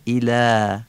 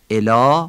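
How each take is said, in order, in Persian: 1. مصوت اول حالت عربی دارد. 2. مصوت اول حالت فارسی دارد. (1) "کسره عربی ایلا" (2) "ایلا فارسیه"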